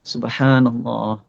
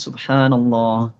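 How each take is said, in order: Both takes have the same delivery.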